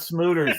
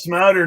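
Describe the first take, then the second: First: The first vowel sounds like 'oo'. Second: The first vowel sounds like 'ow'. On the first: The speaker calls it wrong. "not Smooter" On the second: The speaker calls it right. "yes, Smouter, not Smooter"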